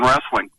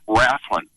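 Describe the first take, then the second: First: The word is said in a plain standard way. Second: The word is said in a Southern drawl. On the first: The speaker calls it wrong. "or I'm sorry" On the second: The speaker calls it right. "Got to say it right. We're in the South here"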